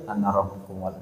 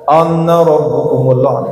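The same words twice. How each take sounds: First: It is said softly, with a small voice. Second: It is said loudly, with a big voice.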